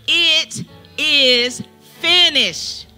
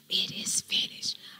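First: It is declared loudly. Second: It is whispered softly.

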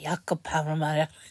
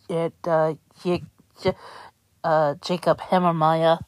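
First: The name is said in a German accent. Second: The name is said in a plain accent.

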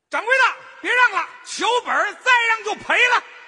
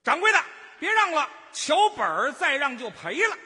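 First: It is pitched higher and louder. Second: It is pitched lower and quieter.

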